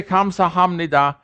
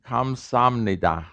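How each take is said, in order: First: "Kamsahamnida" with a clearly sounded H; careful beginner's "Kamsahamnida", H kept in the middle; first-class bookish. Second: "Kamsamnida" with the H dropped, A's run together; natural pronunciation. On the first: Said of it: "you'll sound like you just got out of the first class". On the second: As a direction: say "Kamsamnida" slowly without any H. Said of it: "you should come out saying". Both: Shown as a demonstration.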